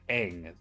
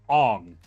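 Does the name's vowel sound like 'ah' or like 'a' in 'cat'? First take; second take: a in cat; ah. First: The vowel sounds like 'a' as in 'cat'. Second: The vowel sounds like 'ah' as in 'song'. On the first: The speaker calls it right. "instead of Eng" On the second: The speaker calls it wrong. "they called him Ong instead of"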